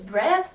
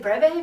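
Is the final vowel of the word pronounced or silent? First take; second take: silent; pronounced. First: The word ends on the v sound. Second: The word ends with a pronounced vowel sound. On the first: This is how the speaker thinks it should sound. "So to me it's brev" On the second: This is how others say it. "it's really weird that you say breve"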